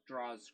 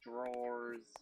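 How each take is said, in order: First: It is said with a Boston pronunciation. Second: It is said with a careful standard pronunciation. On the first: "being from Boston, I say it differently" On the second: "I had to try my hardest to actually say it"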